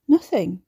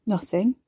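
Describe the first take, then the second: First: NOTHING louder, with a falling end; firm, loud NOTHING that drops at the end; insistent repeat. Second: NOTHING with a slight lift at the end; evasive denial. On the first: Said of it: "Ricky repeated". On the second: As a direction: say NOTHING lightly, ending on a rise. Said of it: "He was a terrible liar". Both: A narrator's reading.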